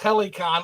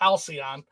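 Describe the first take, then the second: First: It is said like 'HEL-i-con'. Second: It is said like 'HAL-see-on'. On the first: The speaker calls it wrong. "is not pronounced Helicon" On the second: The speaker calls it right. "It's pronounced Halcyon"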